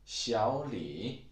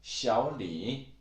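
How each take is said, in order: Both takes have the same delivery.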